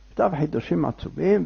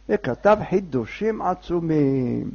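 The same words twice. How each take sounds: First: Said in the usual way. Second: Slow, stretched words; drawn-out emphasis. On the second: A narrator's reading. Narrator tells of the night's great writings, drawn-out emphasis. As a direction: draw out "חידושים עצומים" slowly.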